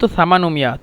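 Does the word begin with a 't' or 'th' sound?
th. The word begins with a 'th' sound. This is the original standard form. "মূলত সামানুমিয়া"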